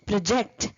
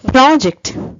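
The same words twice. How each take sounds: First: The stress is on the second syllable. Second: The stress is on the first syllable.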